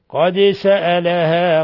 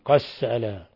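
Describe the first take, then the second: First: The d is pronounced clearly before the s. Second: The d merges into the following s.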